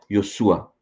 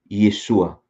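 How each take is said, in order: First: The first vowel sounds like 'o'. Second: The first vowel sounds like 'e'. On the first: This is the form in the two minority manuscripts. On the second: This is a form the majority manuscripts allow.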